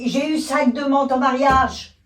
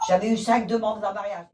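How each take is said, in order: First: It is said with more enthusiasm. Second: It is said flatly, without emotion.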